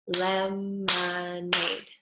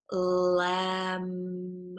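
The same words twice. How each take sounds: First: Lemonade drawn out very slowly, each syllable separate. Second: Lemonade stretched slowly into clear syllables, lem-o-nade. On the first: Teacher slowly sounding out lemonade for children. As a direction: stretch lemonade out for the kids to copy. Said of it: "I want you to try". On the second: Speech teacher modelling lemonade slowly for pupils. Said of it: "when we go from an". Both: Shown as a demonstration.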